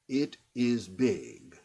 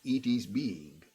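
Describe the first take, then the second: First: The vowels are short English-style I sounds. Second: The vowels are Spanish-style EE sounds. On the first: "just the short I in English" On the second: "It's perfect Spanish pronunciation of English"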